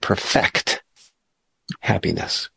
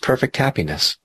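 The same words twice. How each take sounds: First: The stress is on the second syllable. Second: The stress is on the first syllable. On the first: The purpose is to make happiness complete. The speaker calls it right. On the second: Happiness is already complete and flawless. The speaker calls it wrong.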